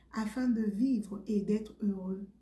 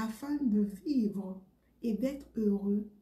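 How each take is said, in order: Both takes have the same delivery.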